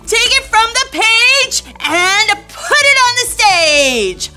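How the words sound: It is said with great excitement.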